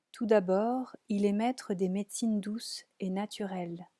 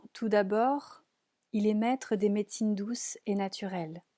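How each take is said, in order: Both takes have the same delivery.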